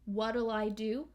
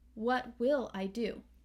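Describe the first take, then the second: First: The first two words merge into one contracted word. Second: The first two words are said separately in full.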